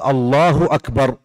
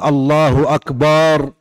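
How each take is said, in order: First: The vowel after the b is short. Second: The vowel after the b is drawn out long. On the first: It means God is greatest. The speaker calls it right. "فيجب على الإنسان أن يراعي ذلك" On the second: It means drums. The speaker calls it wrong. "لا يمد الباء في أكبر"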